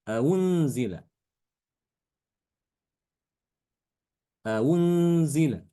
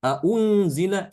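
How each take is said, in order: First: Aunzila with the hamza eased toward w; softened second hamza. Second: Aunzila slow and raised, both hamzas marked; written form stressed. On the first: Teacher modelling the tashil reading of aunzila. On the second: Teacher showing the spelled form before the tashil reading. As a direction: say Aunzila slowly and higher with each hamza clear. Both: Shown as a demonstration.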